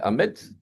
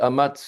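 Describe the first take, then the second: First: The vowel after the M is 'e'. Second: The vowel after the M is 'a'. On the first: The speaker calls it right. "mais en réalité, c'est un C V, donc c'est Ametz" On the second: The speaker calls it wrong. "ils ont écrit Amatz euh, en prononciation"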